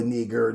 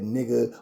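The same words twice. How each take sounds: First: "nigger" with the R clearly sounded at the end; hard R. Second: "nigga" ending in a soft open a, no R. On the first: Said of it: "hard E R". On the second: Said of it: "hard E R bullshit or nigga". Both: Shown as a demonstration.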